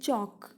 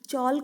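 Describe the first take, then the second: First: The L sound is silent. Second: The L sound is clearly pronounced. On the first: The speaker calls it right. "हम इसको पढ़ते हैं चौक" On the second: The speaker calls it wrong. "चौल्क नहीं पढ़ते हैं"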